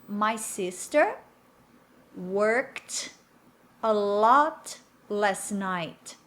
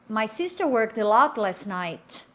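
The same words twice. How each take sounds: First: The sentence is spoken slowly and deliberately. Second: The sentence is spoken at normal conversational speed. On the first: "Agora devagar para você repetir" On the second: "Vou falar normalmente agora, né, nessa mesma velocidade"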